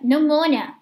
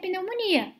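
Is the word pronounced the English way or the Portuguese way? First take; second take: English; Portuguese. First: The word has an English pronunciation. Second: The word has a Portuguese pronunciation. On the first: "porque se pronuncia pneumonia" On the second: "que se escreve da mesma forma que do português"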